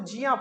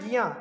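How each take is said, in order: First: It begins with a j sound. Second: It begins with a g sound. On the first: "इसको जिया पढ़ देते कई लोग" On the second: "अगला है गिया"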